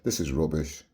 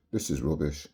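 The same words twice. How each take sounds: The two takes are said the same way.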